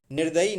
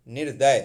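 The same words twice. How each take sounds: First: निर्दयी ending in long EE; wrong form निर्दयी. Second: निर्दय without the final EE; correct form निर्दय. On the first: Teacher rejects the wrong word, mistaken form. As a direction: say निर्दयी, nir-da-yee. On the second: Teacher corrects निर्दयी, shorter form. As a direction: say निर्दय, nir-day. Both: Shown as a demonstration. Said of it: "निर्दयी नहीं".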